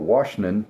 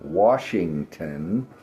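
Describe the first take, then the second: First: The word is rushed with part of it dropped. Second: The word is said fully with every syllable. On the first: The speaker calls it wrong. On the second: The speaker calls it right.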